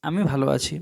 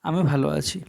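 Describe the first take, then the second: No difference in how they are said.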